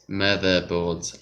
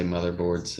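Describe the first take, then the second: First: MOTHERBOARDS slowly in attempted Australian; Australian accent. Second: Said in the usual way. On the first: Shown as a demonstration. Trying out how Australians say "Motherboards", slow tentative Australian accent. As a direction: try "Motherboards" drawn out in Australian. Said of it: "with an Australian accent". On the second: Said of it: "how you say motherboards".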